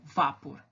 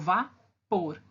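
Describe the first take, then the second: First: The stress is on the first syllable. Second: The stress is on the last syllable. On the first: The speaker calls it wrong. "e não vapor" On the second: The speaker calls it right. "Eu falo vapor ... A sílaba mais forte é a última"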